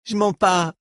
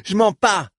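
First: Cri aigu, en se débattant; proteste, plus haut; protestation. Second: Cri plus fort encore, plus haut. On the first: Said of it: "qui se débattait toujours". (Reich secoué par Dors proteste) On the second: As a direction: hurle ta protestation, la voix au sommet. (Reich clame son innocence en criant) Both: A narrator's reading.

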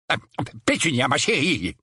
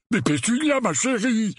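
First: Hesitant, timid endearment. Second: High, plaintive protest; deflated pleading. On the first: Uncle Vernon addressing his shaken wife, timid. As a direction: venture it timidly after a halting start. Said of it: "dit timidement l'oncle Vernon". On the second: Uncle Vernon protesting to his wife, deflated pleading. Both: A narrator's reading.

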